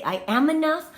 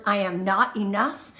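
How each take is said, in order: First: "am" lifted higher and louder, said with conviction; firm affirmation. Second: Said in the usual way. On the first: Shown as a demonstration. Host giving viewers a new mantra, firm and louder. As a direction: declare "I am enough." like you mean it. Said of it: "You are gonna say". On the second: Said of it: "I don't want you to say those words".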